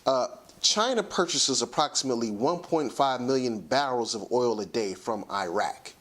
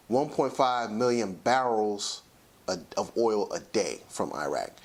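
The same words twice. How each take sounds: First: Said in the usual way. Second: Slowed down, every number weighed. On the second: Shown as a demonstration. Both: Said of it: "repeats the figure slower".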